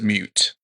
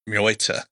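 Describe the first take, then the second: First: It is pronounced in an American English way. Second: It is pronounced in a German way. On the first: "the American way" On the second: "what I think might be the German way"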